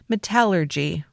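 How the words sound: It is said with a British pronunciation. The speaker calls it right. "the British pronunciation"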